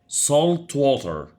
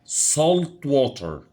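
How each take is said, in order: No difference in how they are said.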